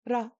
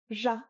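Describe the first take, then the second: First: It starts with a tapped or rolled r. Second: It starts with a buzzing zh sound. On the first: This is the Eastern Tibetan way. "In Eastern Tibet, they use a tapped or a rolled R" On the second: This is the Central Tibetan way. "In Central Tibetan, this is pronounced ja"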